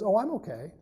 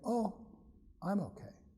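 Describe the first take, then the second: First: It is said smoothly, without hesitation. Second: It is said with a hesitant pause.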